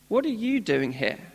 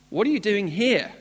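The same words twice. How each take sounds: First: It sounds gentle and caring. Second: It sounds stern and reproachful.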